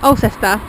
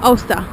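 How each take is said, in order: First: The name is said in full as spelled. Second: The name is shortened to sound like 'Ulster'. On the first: The speaker calls it wrong. "I've been pronouncing the place" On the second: The speaker calls it right. "I heard them calling it ... the proper pronunciation"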